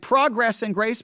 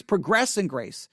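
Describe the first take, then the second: First: Progress said PROG-ress, first syllable stressed; noun pronunciation. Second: Progress said pruh-GRESS, second syllable stressed; verb pronunciation. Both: Shown as a demonstration. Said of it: "would probably be the right way".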